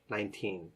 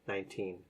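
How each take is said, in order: Both takes have the same delivery.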